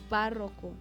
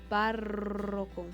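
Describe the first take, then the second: First: The stress is on the middle syllable. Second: The emphasis falls heavily on the rolled R sound. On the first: "Y me salía grave" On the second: "ponía todo el énfasis en la R"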